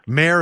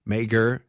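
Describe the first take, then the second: First: The name is said with no g sound. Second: The name is said with a hard g sound. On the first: The speaker calls it right. "It's Mayor and Gear" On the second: The speaker calls it wrong. "You didn't"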